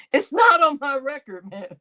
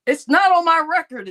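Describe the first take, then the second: First: Said in the usual way. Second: More forceful, pitched up; emphatic repeat, louder; louder insistent. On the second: Real, not acted. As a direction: punch it harder this time.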